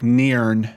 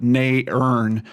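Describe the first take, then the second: First: The word is said as one blended sound. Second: The word is split into two separate sounds. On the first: "it's almost like" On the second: "like they're two separate sounds"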